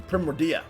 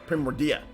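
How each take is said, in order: No difference in how they are said.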